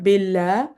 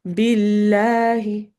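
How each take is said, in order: First: Billah clipped short without the final vowel; wrong ending. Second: Billahi slow, light lam, ending in a clear i; correct ending. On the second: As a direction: billahi said slowly with the final vowel. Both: Shown as a demonstration. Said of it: "it's not billah, it's billahi".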